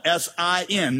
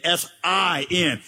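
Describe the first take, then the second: First: Said in the usual way. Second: S I N with a big, drawn-out I; stress on I. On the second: Shown as a demonstration. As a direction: make the I really big and long, between short S and N. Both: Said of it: "Make the middle letter really big".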